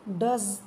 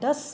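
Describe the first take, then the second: First: The word ends with a buzzing z sound. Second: The word ends with a hissing s sound. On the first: The speaker calls it right. "फिर से सुनो ध्यान से" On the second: The speaker calls it wrong. "जो कि बिल्कुल गलत है"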